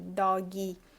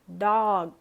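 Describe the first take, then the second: First: An extra 'ee' vowel follows the final consonant. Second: The word ends cleanly on the final consonant. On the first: The speaker calls it wrong. "tudo com I no final" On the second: The speaker calls it right. "A gente tenta não fazer isso, então é cat, dog"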